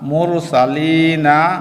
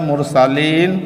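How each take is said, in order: First: The word ends with a short vowel after n. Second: The word ends on n with no vowel. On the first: This is the form used when spelling it out. "বানান করার সময়" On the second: This is the form used when actually reciting it. "উচ্চারণের সময় মুরসালিন"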